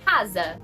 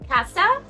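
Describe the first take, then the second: First: It is said with a Brazilian Portuguese pronunciation. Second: It is said with a Spanish pronunciation.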